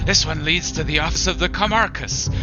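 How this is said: It is said in a put-on child's voice.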